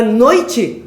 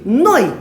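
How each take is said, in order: First: "noite" loud and slow, leaning on the i; wrong stress. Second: "Noi" loud, one falling syllable with the o stressed; correct diphthong. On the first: Teacher rejecting the false option, wrong stress. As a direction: push "noite" into no-I-te. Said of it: "Não é noite". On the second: Teacher correcting the false option, correct diphthong. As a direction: land hard on the o of "Noi". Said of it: "Não é noite? Noi". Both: Shown as a demonstration.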